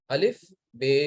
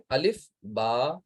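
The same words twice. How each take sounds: First: الف، بے, the second ending in "ay"; Urdu letter names. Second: Slow الف، با, the second ending in long "aa"; Arabic letter names. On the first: Teacher shows the reading to avoid, Urdu الف، بے. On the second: Teacher models the reading to use, slow Arabic الف، با. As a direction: draw out با with an open aa. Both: Shown as a demonstration. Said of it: "نہیں پڑھیں گے".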